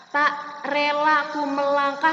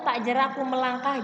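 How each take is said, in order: First: "relaku" with r and l sounds in place of "jeraku"; mispronounced line. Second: "jeraku" said clearly with a j, as written; correct clear pronunciation. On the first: Teacher showing pupils what to avoid, a mispronounced word. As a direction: misread the poem word as "relaku", louder. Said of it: "Tidak seperti itu ya". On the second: Teacher showing pupils the right reading, clearly pronounced. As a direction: pronounce "tak jeraku melangkah" distinctly, keeping je-ra-ku intact. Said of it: "harus pelafalannya yang jelas". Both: Shown as a demonstration.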